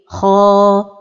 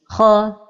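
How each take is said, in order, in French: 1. La voyelle longue est tenue sur toute sa durée. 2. La voyelle longue n'est pas tenue sur toute sa durée. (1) "la prononciation correcte est" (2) "ne pas donner le temps exact de la prolongation comme ceci"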